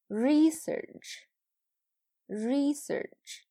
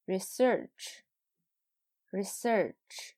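First: "Research" with long, high REE, weaker serch; "Research" as a noun: REE-search, said twice; noun stress on first syllable. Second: "Research" with short ri, weight on SEARCH; "Research" as a verb: ri-SEARCH, said twice; verb stress on second syllable. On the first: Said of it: "前面是名词，后边是动词". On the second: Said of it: "后边是动词". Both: Shown as a demonstration.

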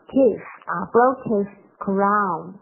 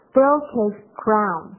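First: Slowly, broke his crown run together; slow linked demo. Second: Slowly, broke his crown linked together; slow linked demo. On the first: Teacher repeats the linked phrase for students, slowly. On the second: Teacher demonstrates the linking to students, slowly. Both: Shown as a demonstration. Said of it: "我们可以把它读出来".

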